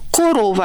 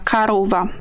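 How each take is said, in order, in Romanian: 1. Prima vocală sună ca o. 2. Prima vocală sună ca a. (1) "adică se scrie corova" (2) "dar noi pronunțăm sabaca, carova"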